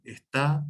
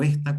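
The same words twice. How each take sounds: First: "está" stressed on the final A; stress on final syllable. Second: "esta" stressed on the initial E; stress on first syllable. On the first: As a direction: say "está" as es-TÁ, the verb. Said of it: "cuando hace referencia al verbo". ("está" con acento en la última A) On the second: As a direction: say "esta" as ES-ta, not on the A. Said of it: "cuando hace referencia a una persona". ("esta" con acento en la primera E) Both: Shown as a demonstration.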